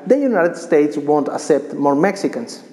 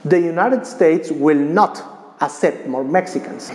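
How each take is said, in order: First: The negation is contracted without emphasis. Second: The word not is strongly emphasized.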